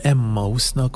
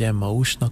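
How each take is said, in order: First: The name is said the general, non-Protestant way. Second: The name is said the way Protestants say it.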